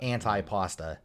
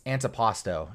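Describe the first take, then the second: First: Anti-pasta said an-tie-PAH-stuh, like pasta; anti-pasta with anti as "ant-eye" and an uh ending; wrong pronunciation. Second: Antipasto ending in a clear o, said an-tee-PAH-stoh; correct pronunciation. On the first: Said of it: "it's antipasto". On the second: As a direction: antipasto with the final o sounding like "stoh". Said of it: "It's not anti-pasta". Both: Shown as a demonstration.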